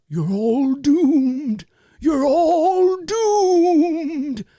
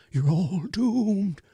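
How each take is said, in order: First: High, very slow, shaky prophet of doom; Crazy Ralph. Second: High, slow, quavering doom warning; Crazy Ralph. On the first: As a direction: draw out a trembling warning that they are all doomed. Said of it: "his classic line, right, would be". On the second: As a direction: let the warning shake as you stretch it out. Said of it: "He's up here like this". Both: Retold or imitated.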